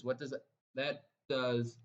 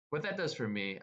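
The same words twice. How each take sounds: First: Excited stutter on that. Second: Said in the usual way. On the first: Real, not acted. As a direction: trip over that, repeating it. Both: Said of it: "I'm stuttering here because I'm so excited".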